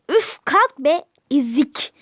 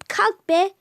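First: Louder, scornful get-up command; loud mean sister insult; rude bossy order. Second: A touch louder, bossy get-up order; mild mean bark; rude snap. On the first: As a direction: shove her off with words. Sister bullies Cemile again. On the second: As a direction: order her up like a bully sister. Sister bullies Cemile. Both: Acted.

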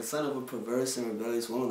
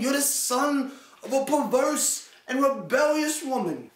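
First: Said in the usual way. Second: Higher, hammed-up formal tirade; mock stiff angry dad. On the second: Mocking an angry dad who speaks in stilted King James English, higher. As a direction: ham up an old-fashioned insult. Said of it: "who gets mad that you know and starts saying".

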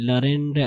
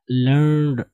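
First: "learned" said as la-ren-de; mispronunciation. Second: "learned" as one syllable, lurnd; correct pronunciation. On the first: Retold or imitated. Teacher mimics how people misread it, mispronounced "learned". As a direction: say "learned" wrongly in three syllables, la-ren-de. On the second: Shown as a demonstration. Teacher models the word for learners, one-syllable "learned". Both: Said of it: "पता नहीं क्या पढ़ते हैं".

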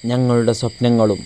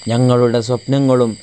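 No difference in how they are said.

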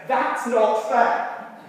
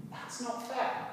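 First: Slow, louder protest, each word drawn out; a kid crying foul, stretched and loud; indignant child. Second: Said in the usual way. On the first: Retold or imitated. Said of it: "a look that says". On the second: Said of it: "repeats it plainly".

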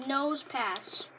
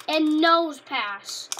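First: Said in the usual way. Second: "nose" slow and loud, drawn out; stress on nose. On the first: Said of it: "Take away easy, replace it with nose". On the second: Shown as a demonstration. Kid joking on the card name, loud and slow on "nose". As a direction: lean hard on "nose" in "nose pass". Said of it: "It sounds like easy pass".

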